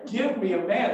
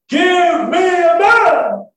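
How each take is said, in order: First: Said in the usual way. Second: Huge high drawn-out bellow; full-out yell. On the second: Acted. Goliath calls his challenge from the riverbank, yelling. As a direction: yell it slowly, as loud as you can. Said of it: "yell it out as loud as I can".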